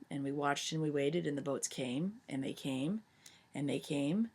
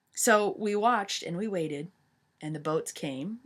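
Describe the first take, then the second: First: Hushed suspense. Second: Said in the usual way. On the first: A narrator's reading. Teacher telling the class how the ships kept coming, hushed and fading. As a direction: let it fade as the ships close in.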